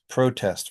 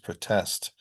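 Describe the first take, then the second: First: The stress is on the first syllable. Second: The stress is on the second syllable. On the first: It is used as a noun. "nouns that have primary stress on the first syllable" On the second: It is used as a verb. "verbs have it on the second syllable"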